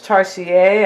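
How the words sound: The word is pronounced the French way.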